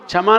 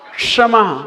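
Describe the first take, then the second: First: The word starts with a 'ch' sound. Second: The word starts with a 'ksh' sound. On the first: The speaker calls it wrong. "क्षमा नहीं" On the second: The speaker calls it right. "षटकोण वाला सा क्षमा"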